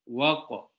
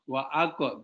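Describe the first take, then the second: First: The 'a' is dropped and the sounds run together. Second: The 'a' is sounded as a separate syllable. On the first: The speaker calls it right. "ini namanya hamzah wasol" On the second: The speaker calls it wrong. "ini jangan dibaca. Wa ako, tidak ada ako di sini"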